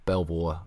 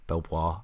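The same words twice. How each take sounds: First: It is said as spelled, with an L. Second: It is said as spelled, with an L.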